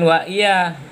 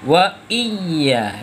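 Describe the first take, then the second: First: The y sound is short and single. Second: The y sound is held long and doubled. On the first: It means 'and you, O sun'. The speaker calls it wrong. "jangan wa iya ... bermakna ya akan engkau ya matahari" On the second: It means 'and You alone'. The speaker calls it right. "Selanjutnya wa iya"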